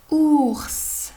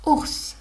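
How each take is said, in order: First: OURS stretched, each sound held and blended. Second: Said in the usual way. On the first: Shown as a demonstration. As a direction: draw out "ours" loudly, higher, for a new reader. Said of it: "on commence à dire ou, puis on lit". (« ours » déchiffré en étirant chaque son) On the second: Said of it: "on lit les autres lettres".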